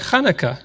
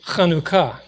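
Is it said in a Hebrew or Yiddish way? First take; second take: Yiddish; Hebrew. First: It is said the Yiddish way. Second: It is said the Hebrew way.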